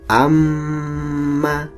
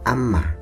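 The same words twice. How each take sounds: First: The nasal m sound is held long. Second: The nasal m sound is cut short. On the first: The speaker calls it right. "Cara membacanya ditahan" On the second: The speaker calls it wrong. "tidak cukup amma, tapi harus ditahan"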